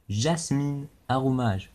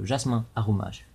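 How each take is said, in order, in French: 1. Le nom se termine par un son n bien prononcé. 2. Le nom se termine par une voyelle nasale, sans n. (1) "mais je dis pas Jasmin" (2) "ça se dit Jasmin"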